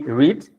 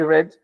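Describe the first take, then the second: First: The word has a long ee vowel. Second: The word has a short e vowel. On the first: It is the present tense. "maybe the pronunciation will be read" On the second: It is the past tense. "in the past we say red"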